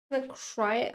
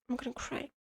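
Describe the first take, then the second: First: Said in the usual way. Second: Softer, half-hearted 'I'm gonna cry'; murmured like a joke to herself; quiet mock whimper. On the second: Overwhelmed by choices, she softly jokes to herself.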